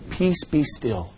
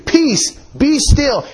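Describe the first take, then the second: First: It is said in a calm, mild tone. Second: It is said as a forceful, sharp command. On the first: A gentle request for quiet. The speaker calls it wrong. "we can't read it like this. That's not how he said it" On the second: A stern rebuke ordering the storm to stop. The speaker calls it right. "He rebuked the wind and the waves. An exclamation point is added"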